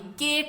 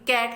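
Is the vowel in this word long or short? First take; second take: long; short. First: The vowel is long, like the letter's name. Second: The vowel is short, not the letter's name. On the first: The speaker calls it wrong. "अब कैट में ए की अपने name की sound नहीं आ रही, केट नहीं है" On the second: The speaker calls it right. "बल्कि कैट है, ए की आवाज आ रही है"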